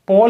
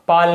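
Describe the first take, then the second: First: The vowel sounds like 'aw' in law. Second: The vowel sounds like 'a' in father. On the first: The speaker calls it right. "पोल होगा" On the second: The speaker calls it wrong. "पाल नहीं"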